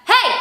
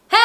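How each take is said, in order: First: Short, sharp called hey; outside voice call. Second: Sung, hey held as a long belted note; sung, belting. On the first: Teacher models for students to try, called out. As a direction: call out one quick hey. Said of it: "I want you to try that". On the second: Sung, teacher models for students to try, belted hey. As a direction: sing hey out and sustain it. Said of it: "that is called belting". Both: Shown as a demonstration.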